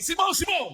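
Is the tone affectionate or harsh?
harsh. The names are said in a harsh, cold tone.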